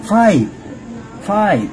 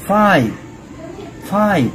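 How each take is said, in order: Both takes have the same delivery.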